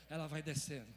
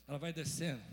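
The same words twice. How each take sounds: The two takes are said the same way.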